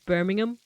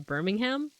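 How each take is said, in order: First: The h sound in the middle is dropped. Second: The h sound in the middle is pronounced.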